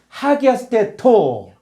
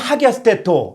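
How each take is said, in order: First: The phrase is said slowly, syllables kept apart. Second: The phrase is said quickly, syllables run together. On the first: "천천히" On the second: "빨리 하면"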